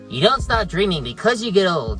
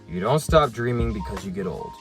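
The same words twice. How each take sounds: First: It is said in Rontu's cartoonish character voice. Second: It is said in his normal voice.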